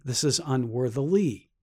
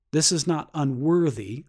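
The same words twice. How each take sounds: First: "unworthily" with its final "-ly" brought out; "unworthily" said deliberately, ending stressed for contrast; stress on UNWORTHILY's ending. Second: Said in the usual way. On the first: Shown as a demonstration. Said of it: "that's why I keep saying it like that".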